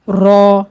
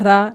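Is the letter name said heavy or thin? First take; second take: heavy; thin. First: The letter is said heavy, with a full mouth. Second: The letter is said thin, like Hindi ra. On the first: The speaker calls it right. "इसको पूर पढ़ना है, मोटा पढ़ें।" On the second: The speaker calls it wrong. "रा हिंदी वाला रा नहीं, ऐसे नहीं पढ़ना।"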